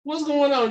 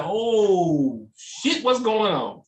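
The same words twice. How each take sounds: First: Higher, more panicked repeat of "What's going on?"; rising alarm. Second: Startled, hammed-up "oh shit"; mock alarm. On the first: Pretend. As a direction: push the panic up a notch. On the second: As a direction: act like you just spotted the pigeons. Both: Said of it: "you'd be like".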